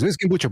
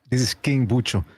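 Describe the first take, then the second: First: The phrase is spoken quickly and rushed. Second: The phrase is spoken slowly and clearly. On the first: The caller does not catch who is speaking. The speaker calls it wrong. "if you say it too fast" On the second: The caller can understand who is speaking. The speaker calls it right. "just say slowly"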